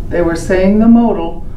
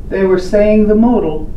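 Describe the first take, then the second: The two takes are said the same way.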